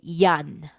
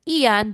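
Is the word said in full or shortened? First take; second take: shortened; full. First: The first vowel is dropped from the word. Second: The word is said with its first vowel. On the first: "they drop the I, they say yan" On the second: "from the word iyan"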